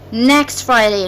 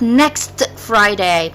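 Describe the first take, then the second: First: The T of next is dropped. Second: The T of next is pronounced. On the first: The speaker calls it right. "I make linking between the two words" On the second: The speaker calls it wrong. "not next Friday"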